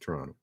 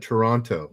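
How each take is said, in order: First: The second T is dropped entirely. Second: The second T is clearly pronounced. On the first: The person is from the city. "there's no T. It's just Toronto" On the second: The person is not from the city. "if you're not from Toronto, you call it Toronto"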